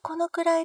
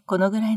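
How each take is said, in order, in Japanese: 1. 声は細くて高い。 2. 声は深くて低い。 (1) "地声がこのくらいで細くて高いので" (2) "お腹から出す低い声"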